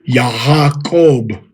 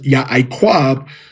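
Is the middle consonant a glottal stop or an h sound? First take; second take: h sound; glottal stop. First: The middle consonant is an h sound. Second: The middle consonant is a glottal stop. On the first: The speaker calls it right. "that ayan being pronounced as Hayin" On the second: The speaker calls it wrong. "Jacob was not pronounced as Ya'aquab"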